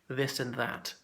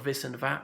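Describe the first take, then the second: First: Each word begins with a th sound. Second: Each word begins with a v sound. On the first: The speaker calls it right. "We definitely pronounce the T H" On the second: The speaker calls it wrong. "not vis and vat"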